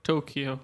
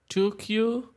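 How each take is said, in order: First: The name is run together as one word. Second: The name is split into two separate words. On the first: The speaker calls it wrong. "but it's not Tokyo" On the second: The speaker calls it right. "I'm saying it like that because it's two Q, it's two words"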